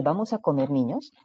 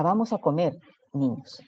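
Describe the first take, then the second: First: "vamos a comer niños" said as one unbroken phrase, no pause before niños; without the comma. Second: Put-on "vamos a comer niños" with a clear pause after comer, niños said as a call to the children; with the comma. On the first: Teacher showing the sentence without a comma, read in one unbroken run. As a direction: run "vamos a comer niños" straight through so niños sounds like the food. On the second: Teacher showing the comma that saves lives, pausing before niños. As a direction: break after "comer" and address "niños" to the kids.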